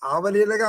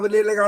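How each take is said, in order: First: The first vowel is long. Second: The first vowel is short. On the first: The speaker calls it wrong. "ఆ దీర్ఘం పెట్టి చెప్తున్నాడు" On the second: The speaker calls it right. "దీర్ఘం ఆ ఉండకూడదు"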